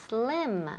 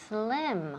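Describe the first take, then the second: No difference in how they are said.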